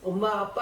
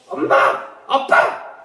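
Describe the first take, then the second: First: The parents are called calmly and quietly. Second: The parents are called out desperately and urgently.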